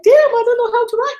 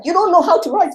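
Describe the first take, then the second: First: Very high, loud shocked realization; mock crushed disbelief, pitch shooting up; dismayed self. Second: High, loud scornful academic voice; imitating snooty academics, pitched high; dismissive academics. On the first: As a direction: play your own deflated shock, voice leaping up. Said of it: "I'm like". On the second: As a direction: mimic a sniffy professor brushing you off. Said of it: "they were like".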